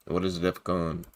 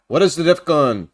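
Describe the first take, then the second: First: Low, soft echo of the question; quiet repeat. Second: Louder, announced question; projected question. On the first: Host repeats the question while looking it up, quiet and low. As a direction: murmur the question over to yourself. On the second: Host turns to answer a viewer's question, projected questioning. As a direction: put the question out loudly to the audience. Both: Real, not acted.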